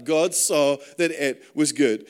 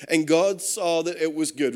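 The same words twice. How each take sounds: First: "God saw that it was good" slowed right down, leaning on "that"; slow emphasis. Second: Said in the usual way. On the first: Shown as a demonstration. Preacher repeating the verse so it sinks in, slow and weighty. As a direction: press "that" and let every word land slowly. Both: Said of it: "Remember that".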